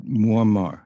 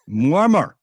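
First: Said in the usual way. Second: Louder, higher mock announcement; caller giving his name. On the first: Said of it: "I said". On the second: Caller naming himself to the host, mock proud foreign voice. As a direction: drop the name like a bombshell. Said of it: "could you tell me your name".

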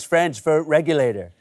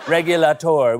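First: Said in the usual way. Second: Regulator with nasal French vowels, stress on last syllable; French accent. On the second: Pretend.

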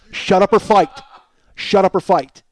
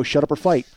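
First: Louder, pressing the ultimatum home. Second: Said in the usual way. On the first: Retold or imitated. To his silent roommate, a louder ultimatum. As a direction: hammer the demand, raising the voice.

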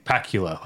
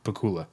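First: "Pakula" rhymed with Dracula, PACK-yuh-luh; Dracula-style pronunciation. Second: "Pakula" said puh-KOO-luh; standard pronunciation. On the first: Host sharing a joke name with co-host, Dracula-style pronunciation. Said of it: "like Dracula". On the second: Host correcting his own joke name, standard pronunciation. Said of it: "I'm pretty sure it's pronounced". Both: Shown as a demonstration.

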